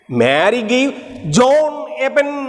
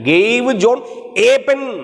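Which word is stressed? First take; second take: John; pen. First: The stress is on John. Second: The stress is on pen.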